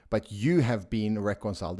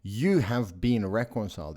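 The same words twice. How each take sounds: First: "you" leaned on in "But you have been reconciled"; stress on you. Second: "You" given the weight, then a falling finish; stress on you. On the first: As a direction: hit "you" and let the rest fall. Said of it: "This is the emphasis". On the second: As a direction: land firmly on "You". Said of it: "The emphasis is on you". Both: Shown as a demonstration.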